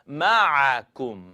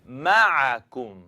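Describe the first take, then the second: The two takes are said the same way.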